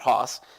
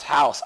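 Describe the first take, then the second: First: The vowel is short 'o' as in boss. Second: The vowel is 'ow' as in cow. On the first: The speaker calls it wrong. "not Hoss" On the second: The speaker calls it right. "pronounced house"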